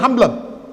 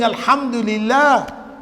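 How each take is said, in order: First: The opening syllable of the phrase is dropped. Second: Every syllable of the phrase is said clearly. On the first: The speaker calls it wrong. "you're saying" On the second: The speaker calls it right. "Instead of saying"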